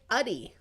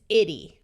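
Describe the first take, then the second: First: The first vowel is a muffled schwa sound. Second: The first vowel is a clear short i. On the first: "Sometimes when it schwas, it may sound more like uddy" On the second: "This is itty"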